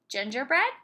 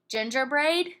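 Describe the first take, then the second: First: The last syllable has a short E vowel. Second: The last syllable has a long A vowel. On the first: The speaker calls it right. "Let's try the short E sound" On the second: The speaker calls it wrong. "Let's try the long A sound"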